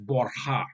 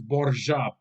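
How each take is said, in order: First: The name is pronounced the Spanish way. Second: The name is pronounced the Italian way. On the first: "but in Spanish, it's Borja with a silent J" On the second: "So in Italian, it's Borgia"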